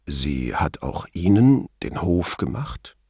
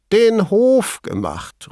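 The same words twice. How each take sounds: First: Low, slow, tactful question; delicately proper. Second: High-pitched, drawn-out incredulous cry; amused exclamation. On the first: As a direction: pick each word with care. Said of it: "die angemessen schickliche Formulierung". (behutsam schicklich, tief und langsam gefragt) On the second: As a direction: call it out high and slow, hooting. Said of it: "rief er". (hoch und gedehnt amüsiert ausgerufen) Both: A narrator's reading.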